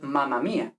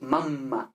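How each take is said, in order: First: "mamma" with a short single m. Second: "mamma" with a long held mm. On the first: Teacher shows wrong Spanish-style mamma. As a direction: say "mamma" with one quick m. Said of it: "no es mamma mía". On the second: Teacher shows the double m in mamma. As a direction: hold the m in "mamma". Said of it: "Con esta M larga". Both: Shown as a demonstration.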